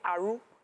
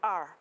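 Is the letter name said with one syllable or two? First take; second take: two; one. First: The letter is said with an added final vowel. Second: The letter is said without an added vowel. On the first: "people who who grew up in the South... They will say Aru" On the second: "instead of R"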